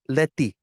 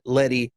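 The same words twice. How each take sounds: First: It is said with a Spanish pronunciation. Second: It is said with an Americanized pronunciation.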